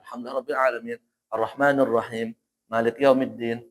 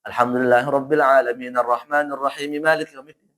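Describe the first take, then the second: First: It stops at the end of each verse. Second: The verses run together without stopping. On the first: "kalau pengen berhenti" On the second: "kalau mau disambung"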